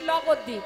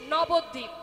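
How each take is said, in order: First: The word starts with an L sound, childlike. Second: The word starts with a clear N sound. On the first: The speaker is a small child who cannot speak clearly. The speaker calls it wrong. "ভাষা পরিষ্কার করে বলতে পারে না" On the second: The speaker is a child who speaks more clearly. The speaker calls it right. "যার একটু ভাষা পরিষ্কার সে বলছে"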